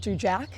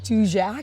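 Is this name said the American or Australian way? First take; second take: Australian; American. First: The name is said the Australian way. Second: The name is said the American way. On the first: "some Australians would call" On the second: "and Americans"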